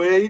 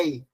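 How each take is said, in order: First: "ei" with closed E, as in "hey". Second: "ei" with open E, as "éi". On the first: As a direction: say "ei" as "êi", vowel kept closed. ("ei" com E fechado, "êi") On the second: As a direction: open the vowel wide on "ei", like E in "bet". ("ei" com E aberto, "éi") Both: Shown as a demonstration. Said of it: "o ei não é ei".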